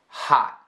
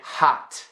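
First: The final T is held and not released. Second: The final T is released with a puff. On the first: The speaker calls it right. "I am almost pronouncing the T, but I'm not" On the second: The speaker calls it wrong. "very strong puff of air for a T"

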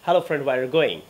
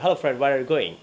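No difference in how they are said.

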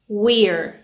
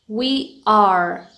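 First: It is said as one contracted syllable. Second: It is said as two full words.

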